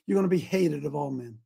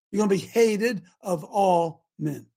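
First: Said in the usual way. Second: Slow, weighty stress on "hated"; emphatic warning. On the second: Real, not acted. Preacher warns his listeners from scripture, slow and emphatic. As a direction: spell out "hated of all men" slowly, word by word.

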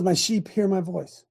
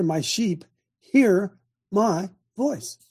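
First: Said in the usual way. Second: Very slow, HEAR, MY and VOICE each set apart; pauses after "hear" and "my"; slow emphatic quote. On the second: Real, not acted. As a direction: spell it out word by word. Verse repeated for clarity.

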